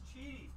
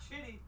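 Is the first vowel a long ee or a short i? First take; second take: long ee; short i. First: The first vowel is a long ee sound. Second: The first vowel is a short i sound. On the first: The speaker calls it right. "it's Cheaty" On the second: The speaker calls it wrong. "It's not Chitty"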